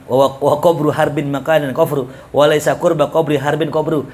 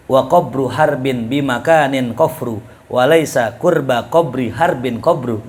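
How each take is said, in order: First: Rushed tongue-twister, a touch faster. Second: Said in the usual way. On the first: Shown as a demonstration. Teacher racing through the tongue twister to show the difficulty. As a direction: rattle the verse off quickly. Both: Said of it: "Coba bilang cepet dah".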